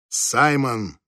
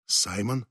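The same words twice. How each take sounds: First: Firm call of the name, falling at the end; firm, commanding. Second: Soft, hesitant questioning call; uncertain, trembling. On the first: Wife calls Simon in the dark bedroom, firm and commanding. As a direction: call the name as a restrained order. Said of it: "Голос её прозвучал так твёрдо и повелительно". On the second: Wife unsure beside Simon in bed at night, uncertain and trembling. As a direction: say the name softly and unsurely, lifting at the end. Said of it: "неуверенно произнесла Джелет дрожащим голосом". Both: A narrator's reading.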